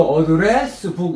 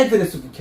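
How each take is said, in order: First: 어드레스 북 said as a verb, with the stress on the end; the wrong way, stressed at the back. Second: 애드레스 북 with the first syllable 애 stressed, like a noun; stress on the front. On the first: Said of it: "이렇게 하면 틀려요". (틀린 강세 시범) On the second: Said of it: "애드레스 북 해야 돼". (앞 강세 명사 발음) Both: Shown as a demonstration.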